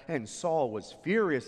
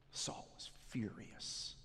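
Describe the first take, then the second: First: Said in the usual way. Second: Preacher building suspense before the massacre, whispered; hushed whisper. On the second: A narrator's reading. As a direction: whisper it like a dark secret. Dramatic turn in sermon story.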